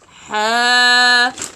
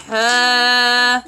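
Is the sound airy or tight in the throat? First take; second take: airy; airy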